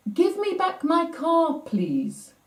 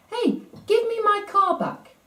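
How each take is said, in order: First: Imitating a small boy making his point firmly; emphatic request. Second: High mock yell of a small boy; imitating a four-year-old shouting for his toy; retold child's yell. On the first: Boy insists to the manager, GIVE stressed high. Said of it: "sort of to emphasize the point". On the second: Boy yells at the teasing manager, high mock shout. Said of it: "Tom yelled out".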